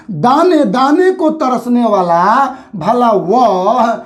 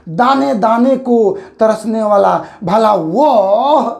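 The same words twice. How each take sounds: First: Slow, वह drawn out; stress on वह. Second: Slow reading, weight on वह; stress on वह. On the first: Teacher reads the phrase aloud, stressing वह. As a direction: lean on the final वह. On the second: Teacher asks students to say it properly, stressing वह. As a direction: let वह carry the line. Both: Shown as a demonstration. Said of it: "इसको ठीक से बोल के देखिए".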